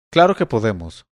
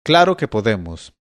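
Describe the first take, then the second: First: Said in the usual way. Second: Mild shout from above; shouted reply. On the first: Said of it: "respondió otra". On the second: A narrator's reading. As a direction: call it down to him, restrained. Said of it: "volvió a gritarle a Bastián".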